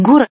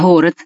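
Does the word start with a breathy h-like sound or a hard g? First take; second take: hard g; breathy h. First: It starts with a hard, stopped g sound. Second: It starts with a soft, breathy h-like sound.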